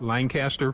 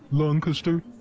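First: The name is said in a plain, casual way. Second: The name is said in a posh, upper-class way.

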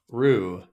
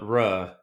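First: The vowel is a long 'oo' sound. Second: The vowel is a short 'uh' sound. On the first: The speaker calls it right. "pronounced Rue" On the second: The speaker calls it wrong. "not Ruh"

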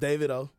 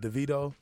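First: The name sounds like 'David-oh'. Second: The name sounds like 'DeVito'. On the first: This is how the artist himself says the name. The speaker calls it right. "it's David O" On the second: This is how many people say the name. The speaker calls it wrong. "I know a lot of people pronounce it DeVito"

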